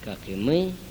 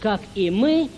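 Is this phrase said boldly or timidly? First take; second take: timidly; boldly. First: It is said quietly and hesitantly. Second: It is said loudly and confidently. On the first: Only a few dare to continue the prayer. "продолжат робко, как бы на полусогнутых" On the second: Everyone is still praying together. "все в унисон, все хорошо будем говорить"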